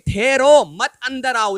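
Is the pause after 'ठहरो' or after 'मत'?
after ठहरो. The pause comes right after 'ठहरो'.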